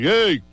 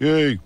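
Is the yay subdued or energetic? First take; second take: energetic; subdued. First: It is said in a full, energetic way. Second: It is said in a subdued, pulled-back way.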